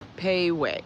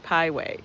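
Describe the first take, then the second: First: The first syllable sounds like 'pay'. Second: The first syllable sounds like 'pie'. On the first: The speaker calls it right. "It was pronounced Payway" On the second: The speaker calls it wrong. "I pronounced it Pieway"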